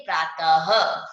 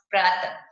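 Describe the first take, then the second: First: प्रातः ending in an audible h, said slowly; breathy h ending. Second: Said in the usual way. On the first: Shown as a demonstration. Teacher demonstrating the visarga ending to pupils. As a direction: let प्रातः close with a clear breathy h. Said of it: "ह का उच्चारण करते हुए बोलेंगे". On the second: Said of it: "तो कैसे पढ़ेंगे".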